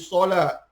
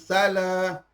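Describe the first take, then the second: First: The s is heavy, with a darker vowel. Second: The s is light, with an open a vowel. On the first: The speaker calls it right. "huruf so" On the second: The speaker calls it wrong. "bukan salah"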